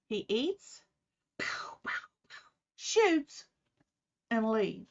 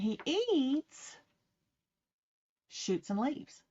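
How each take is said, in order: First: It has pauses after eats and shoots. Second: It is said with no pauses between words.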